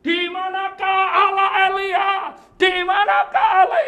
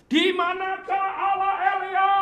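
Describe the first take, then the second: First: Full-throated high shout, louder each time; anguished yell at God; desperate shout. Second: Loud, high anguished cry to God; desperate cry, pitched high. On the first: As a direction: scream the question at the sky. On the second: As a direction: call out to heaven in despair. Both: Retold or imitated. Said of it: "Dia teriak gini".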